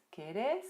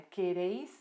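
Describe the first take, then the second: First: "queres" stressed on the last syllable, pure "és"; vos ending without I. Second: "quereis" with a gliding "eis" ending; vosotros ending with I. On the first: Teacher shows the vos form to students, "queres" ending in stressed és. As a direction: say "queres" as ke-RÉS, no i glide. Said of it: "a gente elimina". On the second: Teacher shows the vosotros form first, "quereis" ending in a clear eis. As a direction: say "quereis" keeping the i after the stressed e. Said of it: "Isso acontece com todos os verbos". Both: Shown as a demonstration.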